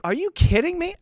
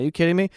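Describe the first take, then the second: First: "you" shot up high in disbelief; high-pitched, outraged disbelief on "you"; incredulous. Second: Said in the usual way. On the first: Acted. Reacting to the dog lady, high incredulous "you".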